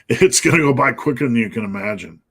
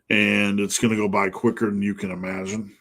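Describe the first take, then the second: First: It is said intensely, with high energy. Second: It is said calmly, with low energy. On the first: The speaker calls it right. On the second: The speaker calls it wrong.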